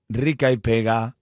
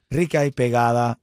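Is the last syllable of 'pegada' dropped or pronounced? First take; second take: dropped; pronounced. First: The final syllable of pegada is clipped off. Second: The word pegada is said in full. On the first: This is the real title of the song. The speaker calls it right. "así es el título de la canción" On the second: This changes the title of the song. The speaker calls it wrong.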